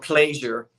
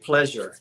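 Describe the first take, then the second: First: It is said in an old South Jersey way. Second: It is said in an everyday general American way.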